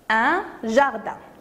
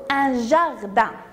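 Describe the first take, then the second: First: The word starts with a soft zh sound. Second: The word starts with a soft zh sound.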